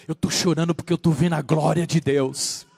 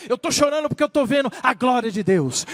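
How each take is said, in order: First: Low-pitched, restrained testimony; low solemn testimony. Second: Raised, impassioned testimony; fervent testimony. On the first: Believer tells why they weep, low and solemn. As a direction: say it low and gravely. True crier's answer, first low take. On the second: Believer tells why they weep, fervent and raised. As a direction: proclaim it in full preaching voice. Same answer, now preached with fervour. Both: Retold or imitated.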